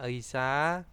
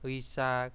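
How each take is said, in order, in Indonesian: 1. Kata ini dimulai dengan bunyi 'ei'. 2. Kata ini dimulai dengan bunyi 'wi'. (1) "kalau teman-teman bacanya Eisa, nggak apa-apa" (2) "tetap dibaca ei atau wi ya. Wisa. Kalau saya sih lebih enak wisa"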